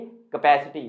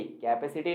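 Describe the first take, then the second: First: कैपेसिटी as kuh-PASS-i-ti; short "kuh", then open "pai" in कैपेसिटी; correct pronunciation. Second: कैपेसिटी as KAI-pe-si-ti; wrong pronunciation. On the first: Teacher correcting students, correct pronunciation. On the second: Teacher rejecting the cape-city habit, wrong pronunciation. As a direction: open कैपेसिटी with a full "kai" and "pe". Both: Shown as a demonstration. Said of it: "कैपेसिटी नहीं कैपेसिटी".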